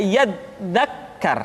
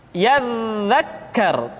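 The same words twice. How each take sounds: First: "yadzakkar" with dz stopped like a hard d; held-back dza, mistaken. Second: Slow "Yadzakkar" with long buzzing dz; flowing dza. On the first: Teacher showing what to avoid, stopped sound. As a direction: block the dz in "yadzakkar". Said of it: "Tidak yadzakkar". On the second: Teacher giving the correct form, flowing sound. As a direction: let the dz in "Yadzakkar" hum through. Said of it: "suara dialirkan dengan lembut". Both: Shown as a demonstration.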